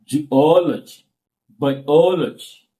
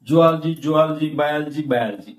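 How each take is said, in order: First: "Zoology", "Biology" with a long stressed second O; correct pronunciation. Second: "zoology", "biology" hurried as zu-al-ji, bai-al-ji; common mispronunciation. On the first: Teacher correcting class, stretched stressed second syllable. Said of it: "that is a real pronunciation". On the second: Teacher quoting what people commonly say, hurried mispronunciation. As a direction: rattle off "zoology" and "biology" with squashed middles. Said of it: "That is not correct pronunciation". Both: Shown as a demonstration.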